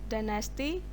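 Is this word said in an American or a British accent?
American. It is said in an American accent. "In American English they pronounce dynasty"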